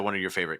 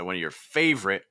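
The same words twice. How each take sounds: First: The phrase flows on with no pause. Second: A pause follows the word favorite. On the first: "you could just say one of your favorite candidates" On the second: "There's that pause"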